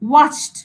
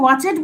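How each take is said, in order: First: The word ends in a short 't' sound. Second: The word ends in an extra 'id' syllable. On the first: The speaker calls it right. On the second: The speaker calls it wrong. "আমরা কি ওয়াচেড বলি?"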